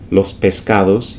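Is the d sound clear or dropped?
clear. The d between vowels is clearly said. "instead of"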